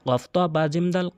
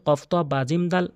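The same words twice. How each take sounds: The two takes are said the same way.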